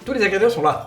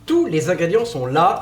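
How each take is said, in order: First: It is said at a faster pace. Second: It is said at a slower pace.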